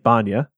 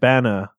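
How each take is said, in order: First: The second syllable has a 'ny' sound, 'nya'. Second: The second syllable is a plain 'na', like banner. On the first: The speaker calls it wrong. "I was pronouncing it Banya" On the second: The speaker calls it right. "it's pronounced like banner with an A on the end"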